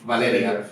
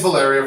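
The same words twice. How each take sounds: First: The name is said with a Spanish accent. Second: The name is said with an English accent. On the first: "For the Latinos, the Ricans" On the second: This is the version for English speakers.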